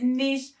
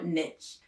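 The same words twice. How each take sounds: First: The word rhymes with leash. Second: The word rhymes with rich. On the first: "I know that the correct pronunciation is niche" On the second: "the riches are in the niches"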